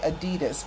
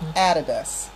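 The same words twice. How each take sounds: First: The word is said the American way. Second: The word is said the non-American way. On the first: The speaker calls it wrong. "Americans say Adidas" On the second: The speaker calls it right. "but it's Adidas"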